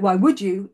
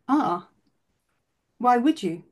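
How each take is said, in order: First: It sounds harsh and self-judging. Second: It sounds gentle and curious.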